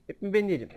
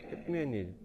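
First: Higher and louder, stressing ben; fed up, yell it at your teammates; exasperated shout. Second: Resigned mutter. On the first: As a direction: ben hits hard, rising annoyance. Repeats complaint louder to teammates. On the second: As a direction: give up on them under your breath. Repeats complaint, giving up. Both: Real, not acted.

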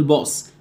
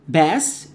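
First: "باص" with a dark, rounded vowel, "boss"; mispronounced pass. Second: Said in the usual way. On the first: Shown as a demonstration. Teacher mimicking a student's mistake, "باص" as "boss". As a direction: say "باص" with a heavy back vowel. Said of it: "وهتقول". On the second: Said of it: "وهتقول باص".

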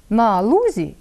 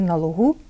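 First: ЛУзі stressed on the first syllable; stress on the stem. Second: ЛугУ stressed on the final у; stress on the ending. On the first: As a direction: hit the У in лузі, light ending. (наголос на основі: лУзі) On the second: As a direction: move the stress to the last syllable of лугу. (наголос на закінченні: лугУ) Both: Shown as a demonstration. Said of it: "Бачите, міняється наголос".

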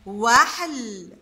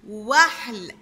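First: "وحل" stretched very slowly; very slow modelling of "وحل"; drawn out. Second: Said in the usual way. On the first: Shown as a demonstration. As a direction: say "وحل" at a crawl, every sound held. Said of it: "هنا مركبة عنا وهنا قطعناها". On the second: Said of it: "هنا مركبة عنا".

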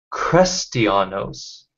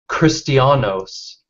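First: "Christianos" slowly, first vowel as in "crest"; E-spelling variant. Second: "Christianos" slowly, ending in "-ohs". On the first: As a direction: say "Christianos" as kres-tee-AH-nohs. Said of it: "the oldest manuscripts of". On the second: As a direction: say "Christianos" as kris-tee-AH-nohs. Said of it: "that's with an O rather than". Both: Shown as a demonstration.

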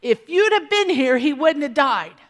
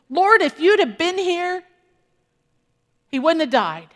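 First: Higher, louder reproachful plea; the same blame from the other sister; lightly voiced grieving reproach; Mary's complaint. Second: Raised, louder reproachful plea; a grieving sister blaming Jesus; mild hurt reproach, pitched up; Martha's complaint. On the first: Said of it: "Mary's gonna say the exact same thing". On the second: Retold or imitated. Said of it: "What does she say?".

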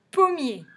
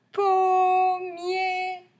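First: Said in the usual way. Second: Pommier high and loud, both syllables held long. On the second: Shown as a demonstration. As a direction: sing out POM, MIER slowly. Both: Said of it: "Deux syllabes".

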